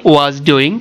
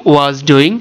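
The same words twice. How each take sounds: No difference in how they are said.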